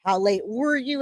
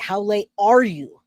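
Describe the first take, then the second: First: "were" lifted and leaned on; stress on were. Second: "are" leaned on, falling off; stress on are. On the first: Contrasting the two questions for viewers, stressing were. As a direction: hit "were", past tense. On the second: Contrasting the two questions for viewers, stressing are. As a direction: land on "are", present tense. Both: Shown as a demonstration. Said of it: "There's a difference".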